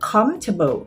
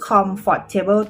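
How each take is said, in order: First: It is said reduced, in a native English accent. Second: Every syllable is spelled out in a Thai accent. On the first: The speaker calls it right. "จริงๆแล้วภาษาอังกฤษจริงๆ ... มันคือ" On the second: The speaker calls it wrong. "คนไทยจะออกเสียง ... ก็คือ comfortable ตรงๆเลย"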